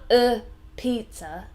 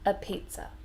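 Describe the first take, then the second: First: The article is said strongly and fully. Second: The article is a weak, relaxed 'uh'. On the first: The speaker calls it wrong. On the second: The speaker calls it right.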